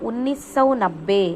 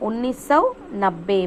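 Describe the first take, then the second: No difference in how they are said.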